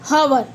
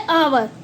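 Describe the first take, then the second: First: The word starts with an audible h sound. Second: The word starts with a vowel, no h sound. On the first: The speaker calls it wrong. "ना कि हवर" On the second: The speaker calls it right. "एच क्या होता है आवर में, silent"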